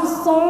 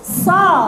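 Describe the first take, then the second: First: The letter is pushed through the nose, sounding nasal. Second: The letter is voiced in the mouth, not nasal. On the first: The speaker calls it wrong. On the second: The speaker calls it right.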